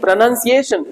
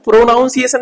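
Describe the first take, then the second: First: प्रोनंसिएशन said with a short "nun", no "naun"; प्रोनंसिएशन said as pro-nun-si-ay-shun; correct pronunciation. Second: प्रोनाउंसिएशन said with "naun", the common mistaken way; प्रोनाउंसिएशन with an "ow" sound, as a mistake to avoid; wrong pronunciation. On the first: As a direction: carefully model प्रोनंसिएशन for the class. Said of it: "प्रोनंसिएशन होता है". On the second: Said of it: "प्रोनाउंसिएशन नहीं होता है". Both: Shown as a demonstration.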